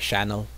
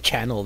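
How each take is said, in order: First: The word begins with a sh sound. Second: The word begins with a ch sound. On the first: This is how Spanish speakers say it. "they supplement it with the sh sound" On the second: This is the usual English pronunciation. "if you say channel"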